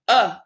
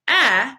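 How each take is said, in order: First: The vowel is a short, relaxed 'uh' sound. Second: The vowel is the open 'a' of apple. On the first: The speaker calls it right. "you're saying uh" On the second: The speaker calls it wrong. "instead of saying a, apple"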